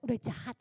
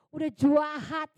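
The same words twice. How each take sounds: First: Said in the usual way. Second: "Udah jahat" said slower and louder, leaning on jahat; stressed udah jahat. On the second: Shown as a demonstration. Telling the congregation her mind was already set, with "jahat" punched slow and loud. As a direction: hit "jahat" hard and drawn out.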